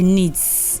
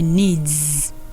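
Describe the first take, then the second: First: The word ends with a hissing s sound. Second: The word ends with a buzzing z sound. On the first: The speaker calls it wrong. "Don't say needs" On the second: The speaker calls it right. "No, all my needs"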